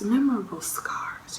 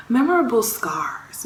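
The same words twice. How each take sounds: First: Soft, half-whispered repeat; said under the breath; whispered echo. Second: Said in the usual way. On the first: Real, not acted. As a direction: drop it to a hushed echo. Same words repeated under her breath.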